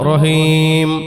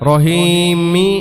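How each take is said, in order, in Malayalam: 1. ഈ വാക്ക് m ശബ്ദത്തിൽ അവസാനിക്കുന്നു. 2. ഈ വാക്ക് ചേർത്ത i സ്വരത്തിൽ അവസാനിക്കുന്നു. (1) "നിർത്തുമ്പോ റഹീം" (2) "നിർത്തുന്നില്ല എങ്കിൽ റഹീമി"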